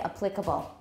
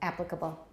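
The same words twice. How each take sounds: First: The stress is on the second syllable. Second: The stress is on the first syllable. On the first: It sounds less educated to the speaker. The speaker calls it wrong. "some people still say applicable" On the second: It sounds more educated to the speaker. The speaker calls it right. "And please learn that one"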